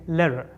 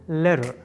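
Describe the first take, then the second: The two takes are said the same way.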